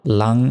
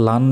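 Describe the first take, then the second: First: লাং ending in a held ng; nasal ng ending. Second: লান ending in a clear dental n; wrong plain n. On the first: Teacher showing the correct ghunna, লাং with nasal ng. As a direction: hum the end of লাং like anusvara. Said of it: "অনুস্বারের মতো উচ্চারণ হবে". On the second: Teacher showing what not to say, লান with a plain n. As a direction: close লান on the tongue-tip n. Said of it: "লান বলা যাবে না". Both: Shown as a demonstration.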